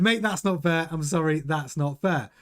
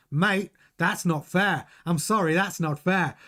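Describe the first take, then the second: First: Said in the usual way. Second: Slowed-down attempt at an Australian accent; Piastri's Australian accent. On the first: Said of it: "He said". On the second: Host quoting a driver's team radio, badly attempted Australian accent. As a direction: have a rough go at an Australian accent. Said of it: "try and do a Piastri accent".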